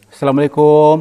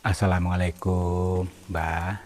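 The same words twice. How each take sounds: First: Too loud greeting. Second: Slow, soft, respectful greeting; gentler, attuned intonation. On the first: Explorer hailing the unseen elder, too loud. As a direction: call the greeting out across a distance. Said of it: "intonasi bicaranya mungkin terlalu kenceng". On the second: Explorer greeting the elder to connect, soft and respectful. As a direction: ease the greeting out gently and slowly. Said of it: "Mari kita selaraskan, baik dari intonasi bicara". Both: Real, not acted.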